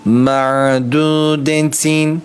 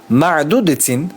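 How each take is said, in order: First: The ayn sound is drawn out smoothly. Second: The ayn sound is cut off abruptly. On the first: The speaker calls it right. "Akıtmanız gerekiyor. Ma'dudetin olması gerekiyor" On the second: The speaker calls it wrong. "bak ma'dudetin, hayır bunu istemiyoruz"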